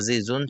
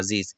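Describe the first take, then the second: First: The word ends with a final -un sound. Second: The word ends on a bare consonant. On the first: This is the form without a pause. "এটা আজিজুন ছিল" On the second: This is the form at a pause. "ওয়াকফের কারণে হবে আজিজ"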